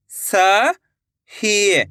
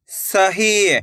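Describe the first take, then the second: First: "सही" split with a pause; rising स, pause, then ही in "सही"; syllable by syllable. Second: Said in the usual way. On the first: Shown as a demonstration. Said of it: "एक एक अक्षर का उच्चारण". ("सही" को तोड़कर, स... ही) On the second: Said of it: "तो मिलके बन जाएगा".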